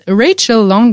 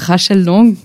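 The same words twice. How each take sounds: First: The name is said with an English accent. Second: The name is said with a French accent. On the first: "j'ai beaucoup aimé ton accent anglais" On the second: "je crois qu'elle est française, donc on va dire Rachel Long, tranquille, standard"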